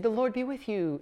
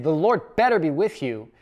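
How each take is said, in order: First: Higher and softer, a kind wish; friendly blessing. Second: Veiled threat. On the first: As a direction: say it as a sincere, happy blessing. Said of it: "It's not a happy thing". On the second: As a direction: lean on better like a threat. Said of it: "it's a threat". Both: Shown as a demonstration.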